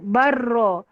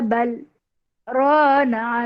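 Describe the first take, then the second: First: The l merges into r with no pause. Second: A brief held-breath pause comes after bal. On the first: The speaker calls it wrong. "dia tak sebut barra" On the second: The speaker calls it right. "berhenti dengan lembut. Tahan nafas ketika itu"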